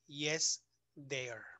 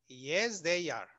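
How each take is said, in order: First: "they are" run together as "they're"; contracted they are. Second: "they are" as two full words, firmly; uncontracted they are. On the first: Teacher showing what not to answer, "they are" contracted to "they're". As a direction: say "they are" as one syllable after "yes". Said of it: "no vayas a decir". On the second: Teacher correcting the answer, "they are" said in full. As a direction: give "are" its own syllable after "they". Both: Shown as a demonstration.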